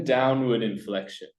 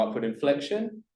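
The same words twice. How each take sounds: First: "downward inflection" closing like a statement. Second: "upward inflection" climbing like a question. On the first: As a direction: end "downward inflection" on a falling tune. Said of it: "and then downward inflection". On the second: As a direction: end "upward inflection" on a high rise. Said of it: "So you go upward inflection". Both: Shown as a demonstration.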